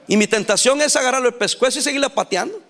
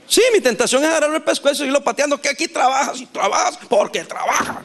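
First: Said in the usual way. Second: Mock-exasperated rush, easing off at the end; vehemencia exagerada. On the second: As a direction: blurt it out fast and high, hamming up the exasperation. Repite con vehemencia su tentación fingida. (vehemencia exagerada, atropellada y en broma)

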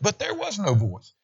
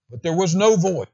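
First: "But there was no voice" with higher pitch, weight on "there"; emphatic, pitch raised. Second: Said in the usual way. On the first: Shown as a demonstration. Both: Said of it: "look at the emphasis of that".

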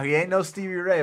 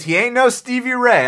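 First: Said in the usual way. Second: Louder, higher, punched out; loud emphatic verdict; emphatic declaration. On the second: Real, not acted. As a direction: slam the verdict down. Repeats claim with emphasis.

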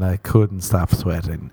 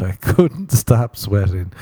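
First: Said in the usual way. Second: COULDN'T drawn out with emphasis, rest punched; exasperated stress on COULDN'T; emphatic COULDN'T. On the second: Retold or imitated. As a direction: lean hard on "couldn't stop sweating" to insist. Insists listeners realize how much.

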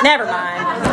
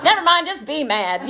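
First: Said in the usual way. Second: Sung, singsong. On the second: Retold or imitated.

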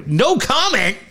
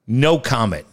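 First: High-pitched, disbelieving question; incredulous. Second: Said in the usual way. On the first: Real, not acted. Host repeating the team's reply to his co-host, incredulous. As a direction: throw the reply back as a high, stunned question.

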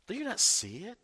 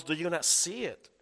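First: "Do you not see it?" pitched higher, leaning on "you"; pressing question. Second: Said in the usual way. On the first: Shown as a demonstration. Preacher pressing the question on congregation, higher and pointed. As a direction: challenge the listeners directly. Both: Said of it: "the question follows".

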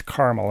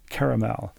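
First: "caramel" as CAR-mul; "caramel" with no middle vowel, CAR-mul; two-syllable caramel. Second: "caramel" as KAIR-uh-mel; "caramel" ending in a full "mel"; three-syllable caramel. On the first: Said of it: "No, it's caramel". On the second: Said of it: "that's how it's pronounced". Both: Retold or imitated.

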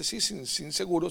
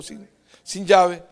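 First: Said in the usual way. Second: "llave" said slow and loud as the right word; finding the word. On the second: Real, not acted. Searching for a word, then landing on "llave" loudly. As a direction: land hard on "llave", drawn out. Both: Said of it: "¿Cómo se dice?".

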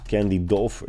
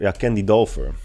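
First: "[name]" with a questioning rise at the end; unsure rising tone. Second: "[name]" firmly with a falling end; confident falling tone. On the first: Unsure of the name. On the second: Confirms the remembered name. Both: Real, not acted.

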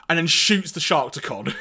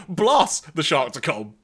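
First: Said in the usual way. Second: "Blast" slow and punched as a pun; punny blast. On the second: Shown as a demonstration. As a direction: lean hard on "Blast", slowly. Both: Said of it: "Or you could say".

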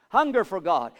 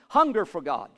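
No difference in how they are said.

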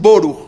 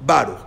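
First: Boruch with "oh" in the first syllable. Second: Baruch with open "ah" in Ba. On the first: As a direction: say Boruch as "BOH-rukh". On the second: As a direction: say Baruch as "BAH-rukh". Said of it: "y los sefaradim". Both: Shown as a demonstration.

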